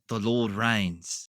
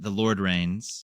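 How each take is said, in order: First: It is said in an Australian accent. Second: It is said in an American accent. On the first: It sounds more spiritual and moving. "it's like goosebumps" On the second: It sounds like a plain true statement. "in my just American accent"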